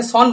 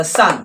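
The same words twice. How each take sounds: First: সন with a rounded "aw" vowel, "sawn"; mispronounced সন. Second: সান with an open "ah" vowel, "saan"; correct সান. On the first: Teacher showing students the common mistake, সন as "sawn". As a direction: say সন wrongly as "sawn". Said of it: "অনেকে সন বলে কিন্তু সন নয়". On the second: Teacher models the right sound for students, open-vowelled সান. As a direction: say সান as "saan", not "sawn". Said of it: "কিন্তু সন নয়". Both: Shown as a demonstration.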